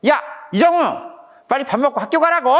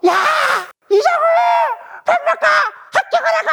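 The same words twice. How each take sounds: First: Fast, higher-pitched acted scolding; mock angry dad. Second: Acted furious yelling. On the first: Dad re-enacting telling his son to go to school, cross. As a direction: act out a dad getting cross. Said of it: "좀 화가 났겠죠?". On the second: Dad re-enacting his second call to an ignoring son, furious scream. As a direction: act out a dad at the end of his patience, screaming. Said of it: "아빠는 더 화가 났겠죠?".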